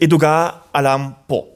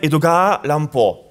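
First: It is split as Edoga, Aran, Po. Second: It is split as Edogawa, Ranpo. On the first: It names the American author. "quand on le prononce" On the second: It forms the Japanese pen name. "si on découpe autrement"

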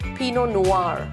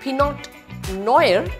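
First: The T and R sounds are silent. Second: The T and R sounds are pronounced. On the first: The speaker calls it right. "The T is silent, the R is silent" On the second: The speaker calls it wrong. "It's not Pinot Noir"

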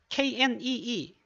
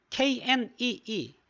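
Both takes have the same delivery.

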